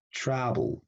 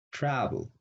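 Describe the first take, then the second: First: Travel with an open Spanish "ah"; open A demo. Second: Travel with the front A of English cat; front A demo. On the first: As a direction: say travel as "TRAH-bel", high and falling. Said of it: "cuando la A predomina en la palabra". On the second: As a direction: say Travel with A leaning toward "eh", high and falling. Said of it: "se pronuncia así, mira". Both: Shown as a demonstration.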